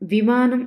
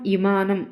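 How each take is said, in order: First: The word begins with the consonant v. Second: The word begins with a vowel, v dropped. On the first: The speaker calls it right. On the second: The speaker calls it wrong.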